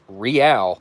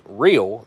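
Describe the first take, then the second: First: It is said like the ending of 'L'Oreal'. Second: It is said like the ordinary English word 'real'. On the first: The speaker calls it right. "That is pronounced Real, like L'Oreal" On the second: The speaker calls it wrong. "That is not pronounced real"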